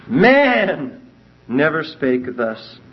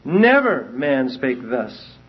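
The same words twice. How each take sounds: First: Slow read with "Man" lifted well above the rest; stress on MAN. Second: "Never" leaned on, the phrase read slowly; slow, deliberate read with "Never" stressed. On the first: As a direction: hit "Man" hard and let the rest fall. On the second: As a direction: put the weight on "Never", not on "man". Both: Shown as a demonstration. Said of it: "Rotherham puts the emphasis on never".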